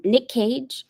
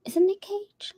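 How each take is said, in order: First: Said in the usual way. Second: Whispered doubtful question to herself. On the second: Real, not acted. Unsure of a celebrity's name, whispering to herself. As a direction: ask yourself in a whisper.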